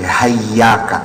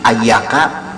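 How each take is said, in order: First: The word starts with an h sound. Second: The word starts with a bare vowel. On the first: "hamzahnya diganti dengan ha" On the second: "dari tadinya iyyaka menjadi ayyaka"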